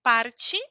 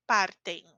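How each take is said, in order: First: Parte ending in a ch sound, chi. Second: Partem said with a clean T, no ch; hard T in partem. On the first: Teacher drilling Parte against partem. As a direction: stress the chee at the end of Parte. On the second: Teacher drilling partem against Parte. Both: Shown as a demonstration.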